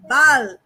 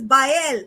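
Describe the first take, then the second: First: Baal said as "bahl"; one-syllable pronunciation. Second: Baal said as "bye-EL"; two-syllable pronunciation. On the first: Speaker gives the demon's other name before spelling it, Baal as "bahl". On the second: Speaker names one of the seventy-two Goetians, two-syllable Baal as "bye-EL". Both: Shown as a demonstration. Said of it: "Baal, B A E L".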